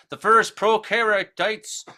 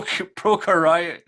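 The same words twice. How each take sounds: First: "prokaryotes" stumbled over slowly as "proh-keh-ree-tites"; fumbled prokaryotes. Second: "prokaryote" sounded out slowly, syllable by syllable; slow corrected "prokaryote"; careful retry. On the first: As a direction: drag out "prokaryotes" and get it wrong. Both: Shown as a demonstration. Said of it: "I can't even say that right now".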